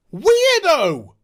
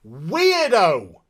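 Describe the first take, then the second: First: Higher, louder jeering weirdo; mocking weirdo call. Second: Said in the usual way. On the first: Real, not acted. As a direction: call her a weirdo, loud and high.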